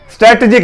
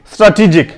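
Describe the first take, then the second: First: स्ट्रैटेजिक with a front "strat" vowel first; quick स्ट्रैटेजिक, no long aa; wrong pronunciation. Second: स्ट्रैटेजिक as "straa-tee-jik"; correct pronunciation. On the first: Teacher warns learners off this reading, wrong pronunciation. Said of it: "स्ट्रैटेजिक नहीं पढ़ेंगे इसे". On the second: Teacher models the word in sequence, correct pronunciation. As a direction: open स्ट्रैटेजिक with a long aa. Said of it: "आप इस तरह से sequence में पढ़ेंगे". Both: Shown as a demonstration.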